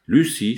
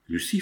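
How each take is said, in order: First: Loud, falling cry of alarm; sudden loud outburst, dropping at the end; terrified exclamation. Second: Understated agitation, low questioning rise; a touch of agitation, held low; agitated. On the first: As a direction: exclaim "Lucie" in narrated terror. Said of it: "livide de terreur". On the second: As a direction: say "Lucie" low, rising in unease. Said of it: "fit-elle d'une voix agitée". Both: A narrator's reading.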